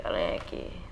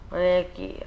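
First: Whispered. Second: Said in the usual way. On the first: Acted. Repeated, second whispered.

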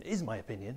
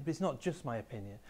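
First: "is" pushed with a rising tune; conceding stress on "is". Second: "not" hit firmly; firm stress on "not" before "just my opinion". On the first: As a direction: lean on "is" to admit it is an opinion. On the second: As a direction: punch "not" to correct the idea. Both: Shown as a demonstration.

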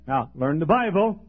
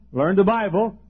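First: Said in the usual way. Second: Learn the Bible said louder with a push; urgent pulpit repeat of Learn the Bible; stressed repeat. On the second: Shown as a demonstration. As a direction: hammer home Learn the Bible as a command.

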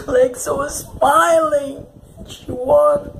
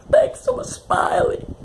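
First: Tearful lament. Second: Crying wail. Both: Real, not acted. Grieving the character, repeated.

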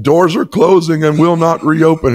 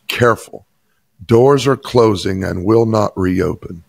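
First: Much higher and louder, bursting out the words; excited declaration. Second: Tram announcement voice. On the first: Pastor telling his stunned assistant the message, excited and emphatic. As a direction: proclaim it like a revelation just received. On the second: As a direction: lightly mimic the tram's recorded warning. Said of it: "the tram operator's voice said these words". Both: Retold or imitated.

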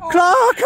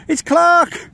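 First: Rising excited shout of the name. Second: Said in the usual way. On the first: Real, not acted. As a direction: call the name out, thrilled. Goal chance, calling out.

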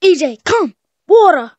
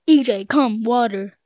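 First: High, loud barked command to a pet; mock command. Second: Said in the usual way. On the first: Playing pet owner ordering E J, loud and high. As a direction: call the pet like a trainer. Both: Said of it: "what if I just say".

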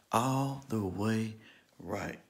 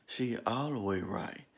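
First: "All the way right" drawn out slowly, word by word; slow, spaced-out "All the way right" for emphasis; slow emphatic repeat. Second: Said in the usual way. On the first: Retold or imitated.

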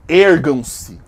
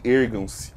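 First: Loud dark-lord command; loud commanding summons. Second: Much lower, grave command; low summoning. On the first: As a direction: order them to rise, loud and grand. Summoning her subscribers. (comando alto e solene) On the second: Summoning her subscribers again. (comando grave e baixo) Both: Acted.

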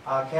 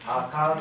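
First: あけ as "akee"; fuse ai in あけ to long ee; Yamaguchi-style あけ, long final e; dialect vowel fusion. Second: あか as "akaa"; あか with i dropped for a long aa; simplified dialect form. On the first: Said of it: "っていう発音が難しいので". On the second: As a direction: lengthen the last vowel of あか. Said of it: "という発音を退化していった". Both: Shown as a demonstration.

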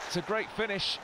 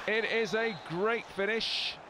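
First: Said in the usual way. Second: Slow, with "is" leaned on hard; stress on is. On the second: Real, not acted. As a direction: insist on "is": It is a great finish.

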